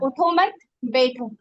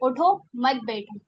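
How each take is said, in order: First: The pause comes after the second word. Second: The pause comes after the first word. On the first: The listener is told to sit down. "बैठने की ताकीद हो रही है ना" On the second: The listener is told to get up. "उठो, gap करा मैंने, वक्फ करा"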